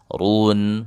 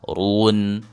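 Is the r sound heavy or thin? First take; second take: heavy; heavy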